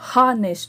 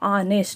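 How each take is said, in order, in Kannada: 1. ಈ ಪದ 'ಹ' ಶಬ್ದದಿಂದ ಆರಂಭವಾಗುತ್ತದೆ. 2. ಈ ಪದ ಸ್ವರದಿಂದ ಆರಂಭವಾಗುತ್ತದೆ, ಹ ಇಲ್ಲ. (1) "ಹಾನೆಸ್ಟ್ ಅನ್ನಲ್ಲ" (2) "ಆನೆಸ್ಟ್ ಅಂತ ಅಂತೀವಿ ನಾವು"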